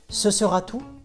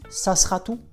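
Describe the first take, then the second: First: The phrase is said at a normal, careful pace. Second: The phrase is said very fast and reduced.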